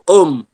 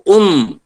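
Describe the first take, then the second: First: The vowel is an open 'o' sound. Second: The vowel is a close 'u' sound. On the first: The speaker calls it wrong. "Kalau o um" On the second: The speaker calls it right. "Kalau u um"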